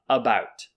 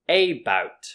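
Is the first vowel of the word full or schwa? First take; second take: schwa; full. First: The first vowel is a reduced schwa sound. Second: The first vowel is a full 'a' sound. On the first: The speaker calls it right. "actually this A is pronounced as a" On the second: The speaker calls it wrong. "they might think this is pronounced about because it starts with the letter A"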